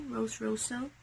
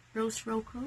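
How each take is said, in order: First: "Rosso" with an s sound; alternative pronunciation. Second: "Rocco" with a hard k sound; tentative pronunciation. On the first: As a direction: try "Rosso" as ROH-soh, no k. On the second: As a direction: try "Rocco" as ROH-koh. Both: Shown as a demonstration. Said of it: "I don't know how you really pronounce it".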